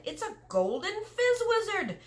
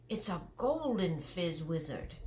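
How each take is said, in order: First: Much higher, louder giant cry on fizz; excited cry. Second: Said in the usual way. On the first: Acted. Giant showing Sophie his prize, delighted high cry. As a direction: burst out in delight, stressing fizz. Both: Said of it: "he cried".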